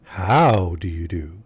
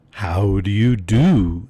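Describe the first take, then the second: First: "How" stretched out and stressed up front; drawn-out greeting, leaning hard on the opening "How"; slow swoop on "How", the rest tailing away; altered emphasis. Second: "do?" stretched and leaned on heavily; drawn-out greeting, big swooping emphasis on the final "do?"; slowly, landing hard on the closing "do?"; stress on last word. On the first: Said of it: "altering the emphasis". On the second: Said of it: "laying great stress on the last word of the inquiry". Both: A narrator's reading.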